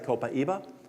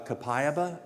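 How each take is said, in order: First: It has a Brazilian pronunciation. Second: It has a non-Brazilian pronunciation. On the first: "the people from Brazil say" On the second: "Some people pronounce it uh"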